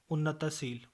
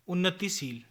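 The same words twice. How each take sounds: First: उन्नतशील with a after t; mispronunciation. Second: Said in the usual way. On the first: Shown as a demonstration. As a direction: say unna-ta-sheel for उन्नतशील. (उन्नतशील, त पर अ) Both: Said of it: "उन्नतशील नहीं".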